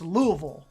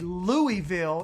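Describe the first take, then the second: First: The name is said the local way. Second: The name is said the outsider way. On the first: This is how locals say it. The speaker calls it right. "it's Louisville ... That's how they say it" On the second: This is how outsiders say it. The speaker calls it wrong. "they don't say"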